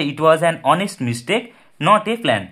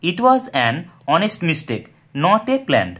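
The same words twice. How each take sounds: First: "an" said fully as "æn" with weight, very slow; stressed an. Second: "an" said lightly as "un", very slow; weak form an. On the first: Teacher to students showing the strong form, "an" said as "æn". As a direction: lean on the "an" before honest, slowly. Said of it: "এটার উপর কিন্তু একটা জোর রয়েছে". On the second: Teacher to students showing the weak form, "an" said as "un". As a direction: read slowly with a light unstressed "an". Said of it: "আন". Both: Shown as a demonstration.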